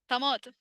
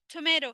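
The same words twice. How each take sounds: First: The second t is a clear t. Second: The second t is a soft d-like flap. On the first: "احنا كلنا عارفين انها tomato" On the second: "it's not a clear D... ال T عاملة نفسها D"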